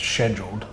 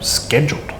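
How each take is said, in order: First: The C in the word is silent. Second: The C in the word is sounded out. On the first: "I treat the C as silent" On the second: "it's got to be phonetically sounded out"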